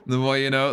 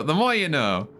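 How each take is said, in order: First: Announcer parody. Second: Drawn-out PSA tagline; announcer parody. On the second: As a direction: say it like a TV jingle. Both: Acted.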